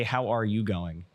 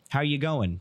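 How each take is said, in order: First: Said in the usual way. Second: Casual Australian-style "How you going", run together; quick mock-Australian greeting; imitating Australians. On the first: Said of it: "They say". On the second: Shown as a demonstration. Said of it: "Tyler went to Australia".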